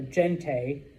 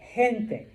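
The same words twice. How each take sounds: First: The first sound is a hard g. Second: The first sound is like an h. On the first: The speaker calls it wrong. "it's not genti or gente" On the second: The speaker calls it right. "like an H"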